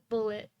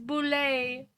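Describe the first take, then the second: First: It is said like the word bullet. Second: It is said like boulet, not bullet. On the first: The speaker calls it wrong. "I'm still gonna pronounce it bullet" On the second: The speaker calls it right. "apparently it's pronounced boulet"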